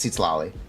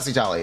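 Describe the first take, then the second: First: The middle consonant is a tl cluster sound. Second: The middle consonant is a plain t sound. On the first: The speaker calls it right. "it's Seat Slolly" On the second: The speaker calls it wrong. "It's not Seatali"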